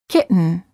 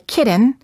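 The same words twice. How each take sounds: First: The T sound is held before the N. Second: The T sound is released before the N. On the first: The speaker calls it right. "say kitten" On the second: The speaker calls it wrong. "Don't say"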